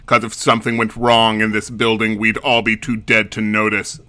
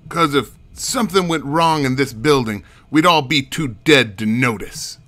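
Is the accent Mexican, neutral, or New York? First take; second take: neutral; New York. First: It is said in a plain, neutral accent. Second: It is said in a New York accent.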